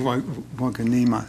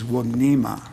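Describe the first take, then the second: First: An extra vowel is said mid-name. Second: No extra vowel is said mid-name. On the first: The speaker calls it wrong. "I know everybody wants to say Wignema" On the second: The speaker calls it right. "I don't think there's an E in the middle of the name"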